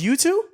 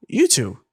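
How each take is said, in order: First: YOU TOO rising high as a question; questioning offer. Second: YOU TOO falling, at ordinary pitch; matter-of-fact repeat. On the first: Woman propositioning two men in a lobby, "You too" as a high question. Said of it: "Then she goes". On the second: Woman repeating her offer after "sorry?", "You too" falling matter-of-factly. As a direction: drop "too" like a stated fact. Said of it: "I was like, I'm sorry?". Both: Retold or imitated.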